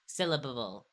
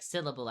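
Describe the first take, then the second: First: "syllabable" with the ending syllable repeated; doubled last syllable. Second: Said in the usual way. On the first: Shown as a demonstration. Showing her end-of-word stutter, says "syllabable". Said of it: "I'll say". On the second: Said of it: "instead of saying".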